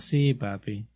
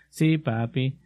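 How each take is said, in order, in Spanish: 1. Se dice con un tono reacio, casi suspirando. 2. Se dice con un tono neutral y sumiso. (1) "pero es con, ah" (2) "Tal vez digan"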